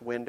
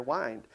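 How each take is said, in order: First: Short vowel in "wind". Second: "wind" rhyming with find; "wind" with long i. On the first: Teacher contrasts two readings, "wind" as winned. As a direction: say "wind" like the breeze, rhyming with pinned. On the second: Teacher contrasts two readings, "wind" as wynd. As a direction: say "wind" as in winding a watch. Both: Shown as a demonstration. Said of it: "I can twist the dial on my".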